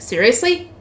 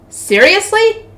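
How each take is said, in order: First: Said in the usual way. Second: High-pitched disbelieving question; incredulous. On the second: A narrator's reading. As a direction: repeat it higher, in sheer disbelief. Repeats the word in rising disbelief.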